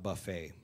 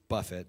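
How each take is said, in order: First: The stress is on the second syllable. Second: The stress is on the first syllable. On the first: It names a self-serve meal. The speaker calls it wrong. "it's not buffet" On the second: It means to strike with the fist. The speaker calls it right. "it's buffet. Means to strike with the fist"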